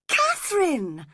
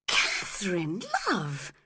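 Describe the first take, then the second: First: Much higher, louder shocked call of Catherine; shocked cry. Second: Said in the usual way. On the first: A narrator's reading. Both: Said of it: "cried Edgar, shocked".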